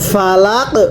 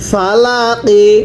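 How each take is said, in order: First: The word ends on the final consonant. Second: The word ends with a short i vowel. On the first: The reader stops at this word. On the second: The reading continues without stopping.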